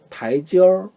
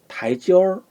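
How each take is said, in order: The two takes are said the same way.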